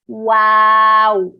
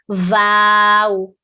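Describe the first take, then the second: First: It begins with a W sound. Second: It begins with a V sound. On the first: The speaker calls it right. "you want W sound. So circle your lips" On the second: The speaker calls it wrong. "they tend to pronounce it like a V sound, like a vow, like this"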